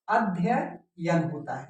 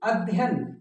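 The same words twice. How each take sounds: First: Slow, careful अध्ययन with every syllable "a-dhya-yan"; correct pronunciation. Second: अध्ययन said short as "adhyan", the wrong way; the careless everyday अध्ययन; common mispronunciation. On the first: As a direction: spell out अध्ययन deliberately, syllable by syllable. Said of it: "हमेशा ध्यान रखना होगा". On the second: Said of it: "तो अक्सर बोलने में ये आता है". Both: Shown as a demonstration.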